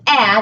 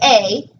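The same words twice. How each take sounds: First: The vowel is short, as in bat. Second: The vowel is long, like the letter's name. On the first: The speaker calls it right. "a says a, ... So that would be a short vowel" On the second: The speaker calls it wrong. "doesn't say a"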